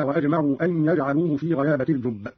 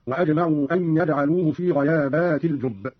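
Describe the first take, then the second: First: Said in the usual way. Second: غيابات said "ghayaabaati", long before the t; plural reading. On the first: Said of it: "وقوله تعالى". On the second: Shown as a demonstration. Teacher repeating Qalun's plural in the second verse, غيابات with long "aat". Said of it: "قرأ قالون بالجمع هكذا".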